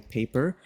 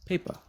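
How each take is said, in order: First: "paper" with a full er vowel at the end; "paper", ending on a clear er. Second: "paper" ending in a reduced ah, like "pay-puh"; "paper" with its er weakened to a schwa. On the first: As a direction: say "paper" with the complete second vowel. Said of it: "instead of saying paper". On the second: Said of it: "change it to a A in schwa". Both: Shown as a demonstration.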